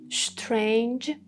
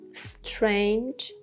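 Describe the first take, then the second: First: It begins with an sh then t-r sound. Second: It begins with an s then ch sound. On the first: "you can make sh plus t plus r sound" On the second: "You can have S plus Ch sounds"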